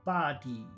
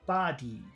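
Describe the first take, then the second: The two takes are said the same way.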